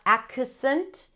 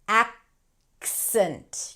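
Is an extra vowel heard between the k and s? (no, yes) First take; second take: yes; no. First: A vowel is inserted between k and s. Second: The k and s sounds join directly. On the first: The speaker calls it wrong. "not accent. Don't add a vowel" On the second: The speaker calls it right. "You want to connect them"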